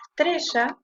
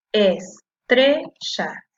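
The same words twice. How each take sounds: First: Said in the usual way. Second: "estrella" very slow, in three separate syllables. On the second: Shown as a demonstration. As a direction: break "estrella" into "es", "tre", "lla". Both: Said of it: "La separo en sílaba".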